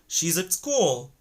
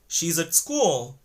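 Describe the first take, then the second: First: The word 'at' is reduced to 'ud'. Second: The same.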